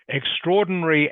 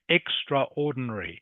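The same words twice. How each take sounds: First: The 'a' after 'extr' is silent. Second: The 'a' after 'extr' is clearly pronounced. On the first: The speaker calls it right. "is not spelt the same way it is pronounced" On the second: The speaker calls it wrong. "it looks like it should be pronounced extraordinary"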